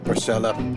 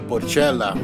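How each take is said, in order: First: The word is said with a plain anglicized pronunciation. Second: The word is said with an Italian pronunciation.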